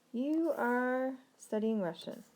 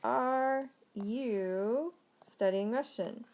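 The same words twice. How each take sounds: First: Slow, spaced "You are", falling on "Russian"; statement intonation. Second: Very slow, drawn-out "Are you", lifted question tune; question intonation. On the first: Teacher models the English statement for learners, slow falling intonation. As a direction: say "You are studying Russian" slowly, settling downward. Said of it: "If we're making the statement". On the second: Teacher switches the words into a question, slow questioning intonation. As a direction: stretch "Are" and "you" apart as a careful question. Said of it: "change it to a question".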